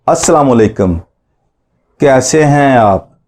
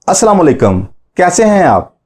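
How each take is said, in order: First: It is said at a normal pace. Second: It is said at a faster pace.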